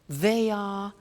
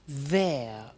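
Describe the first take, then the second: First: It is said as two full words. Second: It is said as one contracted syllable.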